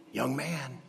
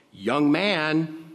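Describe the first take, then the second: First: Quiet, close, gentle calling; soft call. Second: Raised, higher call to the dead man. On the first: Jesus quietly telling the dead man to sit up, soft. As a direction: murmur it to him gently. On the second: Jesus addressing the dead young man in the coffin, a raised call. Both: Acted.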